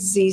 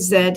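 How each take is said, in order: First: The letter name is said the American way. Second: The letter name is said the local way. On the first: "in the States it's Z stone" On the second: "we say Z here"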